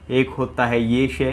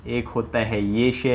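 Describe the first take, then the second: No difference in how they are said.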